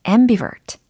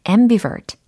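The two takes are said the same way.

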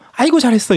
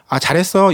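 First: It is said with exaggerated, expressive emotion. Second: It is said in a plain, flat way.

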